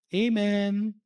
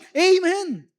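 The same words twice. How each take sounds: First: It is said flatly, as if it is nothing. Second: It is said loudly and joyfully.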